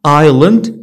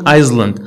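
First: "island" as eye-land, no S; silent S. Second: "Iceland" for island, with the S heard; S sounded. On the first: Teacher models the word for learners, silent S in "island". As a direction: say "island" with the S dropped. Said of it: "S is not pronounced before L". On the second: Teacher shows the mistake, S sounded in "Iceland". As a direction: say "Iceland" as eyes-land, S audible. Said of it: "ما كنقولوش". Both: Shown as a demonstration.

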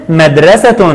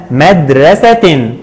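First: مدرسة pronounced "madrasatun"; final u plus n sound on مدرسة; tanween damm ending. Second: مدرسة pronounced "madrasatin"; final i plus n sound on مدرسة; tanween kasr ending. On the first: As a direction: end مدرسة on a clear "-tun". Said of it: "عند التنوين بالضم قلنا". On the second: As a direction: end مدرسة on a clear "-tin". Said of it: "وعند التنوين بالكسر قلنا". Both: Shown as a demonstration.

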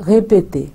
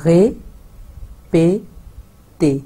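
First: Répéter in French, "ray-pay-TAY"; French model word. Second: Répéter stretched very slowly; drawn-out demo. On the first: Teacher models répéter joined, clear French. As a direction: say répéter whole and crisp. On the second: Teacher slowly stretching répéter for learners. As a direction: hold each sound of répéter long. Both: Shown as a demonstration. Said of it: "इकट्ठे बोलते हैं".

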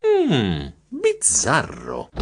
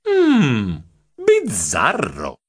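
First: Pondering. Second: Slow, suspicious musing; pondering. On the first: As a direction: draw out the word as you mull it over. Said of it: "Io riflettei". (riflessivo, lento e sospettoso) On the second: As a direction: stretch the word out slowly. Narrator musing to himself. (riflessivo e lento, insospettito) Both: A narrator's reading.

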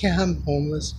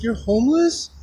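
First: Said in the usual way. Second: High questioning rise; imitating surprised woman. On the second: Woman learns the man helping her is homeless, imitated surprise. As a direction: echo her disbelief, pitched up at the end.

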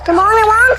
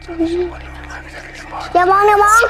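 First: Raised, urgent and higher; loud warning. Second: Hushed urgent whisper. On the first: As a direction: call it out in alarm. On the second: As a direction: breathe it out, barely voiced. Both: Real, not acted. Scary game, urging not to look.

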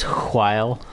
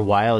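First: "while" said hwile, with a strong puff of H; exaggerated H. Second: Said in the usual way. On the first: Shown as a demonstration. Player showing how some people say it, exaggerated H in "while". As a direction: blow a long H at the start of "while". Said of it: "emphasize the H in words".

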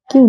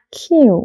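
First: "কিউ" short, with no puff of air; mispronounced Q. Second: "কিউ" higher, with an aspirated k and drawn-out glide; correct Q. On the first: Teacher showing learners the wrong form, plain Q. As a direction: give the common unaspirated "কিউ". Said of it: "কিউ ভুল উচ্চারণ". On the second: Teacher giving learners the right pronunciation, aspirated Q. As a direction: puff the k and stretch "কিউ". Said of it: "সঠিক উচ্চারণ হচ্ছে". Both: Shown as a demonstration.

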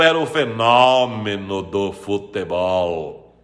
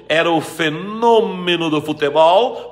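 First: FENÓMENO with a wide open o, slow and low. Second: FENÔMENO with a closed, stretched o. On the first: Teacher asking about Ronaldo, fenômeno with open O. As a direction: drag fenômeno out low, opening the stressed O. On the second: Teacher asking about Ronaldo, fenômeno with closed O. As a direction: say fenômeno with a rounded, closed stressed O. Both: Shown as a demonstration. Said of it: "pode ter acento agudo quanto circunflexo".

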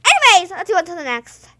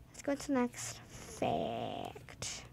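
First: Said in the usual way. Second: Slow breathy whisper. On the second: Real, not acted. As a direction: whisper it slowly. Repeated in whisper.

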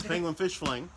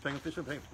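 First: Said in the usual way. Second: Rushed and softer, words running together; fast tongue twister. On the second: Shown as a demonstration. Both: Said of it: "Say that three times fast".

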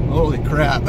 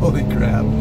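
First: High, loud amazed burst; surprised exclamation. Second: Startled, loud burst of amazement; surprised exclamation. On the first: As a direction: blurt it out, thrilled and stunned. Second burst after throttle tap. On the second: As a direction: blurt it out in shock. Shocked by sudden throttle kick. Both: Real, not acted.

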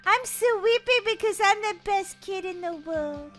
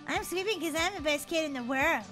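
First: Sung, sing-song boast. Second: Mocking mimicry. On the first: Acted. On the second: [name] copying Daisy's boast, mocking. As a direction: mimic a little sister's chant. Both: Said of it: "don't mock me".

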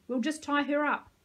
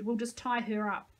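First: Louder, firmer repeat; shouting the order again. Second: Said in the usual way. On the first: A narrator's reading. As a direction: insist loudly. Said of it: "I shouted".

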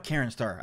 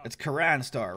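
First: Karen Star with Karen said like the woman's name Karen, the first guess. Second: Karan said ka-RAHN with an open second vowel, not like Karen; corrected Karan. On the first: Reading out the opponent's name from the screen, first try: Karen with a plain name-Karen sound. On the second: Correcting himself on the opponent's name: Karan said as ka-RAHN. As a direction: fix the name to Karan, the ah sound kept open. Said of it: "I shouldn't say that". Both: Real, not acted.

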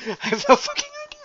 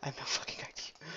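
First: Laughing, high and fast. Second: Breathy whisper aside. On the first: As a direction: laugh the words out. Laughing take. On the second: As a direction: whisper it to yourself. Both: Real, not acted.

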